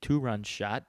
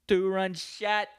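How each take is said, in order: First: Said in the usual way. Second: High, slow, drawn-out sports call; hyped home-run call. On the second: Acted. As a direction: stretch it out like an excited announcer, high-pitched.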